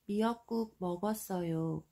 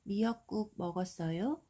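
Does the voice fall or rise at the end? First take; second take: fall; rise. First: The pitch falls at the end. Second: The pitch rises at the end. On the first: It states that seaweed soup was eaten. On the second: It asks whether seaweed soup was eaten.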